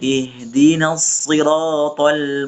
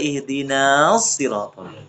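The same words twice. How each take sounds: First: The vowel after the n is short. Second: The vowel after the n is long. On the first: The speaker calls it right. "tidak perlu kita baca panjang" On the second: The speaker calls it wrong. "tidak boleh kita baca"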